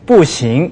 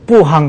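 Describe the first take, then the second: First: The second syllable is pronounced xing. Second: The second syllable is pronounced hang. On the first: The speaker calls it right. "어머니가 안 돼 그러면 뿌싱 이렇게 하죠" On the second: The speaker calls it wrong. "뿌항 그러면 안 되죠"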